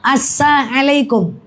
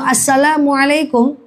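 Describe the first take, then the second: First: The 'l' sound in the middle is left out. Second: The 'l' sound in the middle is pronounced. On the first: It wishes harm on the listener. The speaker calls it wrong. "Lamnya dia tinggalkan" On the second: It wishes peace on the listener. The speaker calls it right. "keselamatan atas engkau"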